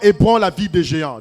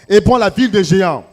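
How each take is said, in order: First: It is said at normal volume. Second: It is said louder, with more force.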